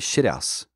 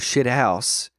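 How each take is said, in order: First: The H in house is silent. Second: The H in house is pronounced. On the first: "the H is silent" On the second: "instead of"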